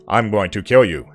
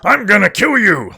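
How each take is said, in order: First: It is said in a flat, emotionless voice. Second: It is said in an evil, menacing voice.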